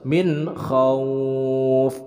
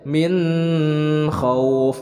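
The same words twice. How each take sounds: First: The n is said clearly without nasal hum. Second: The n is held with a nasal hum. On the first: The speaker calls it right. "Sebab ini adalah izhar, jadi bacanya harus min khauf" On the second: The speaker calls it wrong. "tidak disertai gunah, tidak bacanya min khauf. Nah, itu salah"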